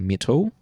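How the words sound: It is said in a New Zealand accent.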